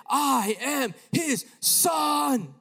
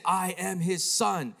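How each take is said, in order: First: Loud, high, hugely drawn-out proclamation; shouted voice. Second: "I am his son" slow and raised, each word weighted; slow, deliberate quote. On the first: A voice answering the boy in Arabic, shouted. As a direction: boom it out slowly, stretching every word. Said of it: "But it shouted". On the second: Boy explaining what the voice said, "I am his son" slow and emphatic. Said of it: "And the voice said". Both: Retold or imitated.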